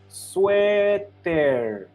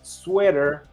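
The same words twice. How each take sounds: First: The word has a Spanish-adapted pronunciation. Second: The word has its original English pronunciation. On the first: "how they started to pronounce this word, it was sweater" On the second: "the word sweater definitely came from the English"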